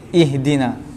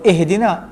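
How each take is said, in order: First: The first vowel sounds like 'ih'. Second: The first vowel sounds like 'eh'. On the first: The speaker calls it right. "kita baca ih lah. Jangan eh dengan eh" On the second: The speaker calls it wrong. "Sebab sebahagian kita sebut ihdina, eh"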